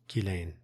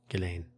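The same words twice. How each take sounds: The two takes are said the same way.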